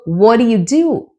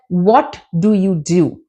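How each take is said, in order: First: The words run together with sounds dropped. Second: Each word is said fully and separately. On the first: The speaker calls it right. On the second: The speaker calls it wrong. "I never said"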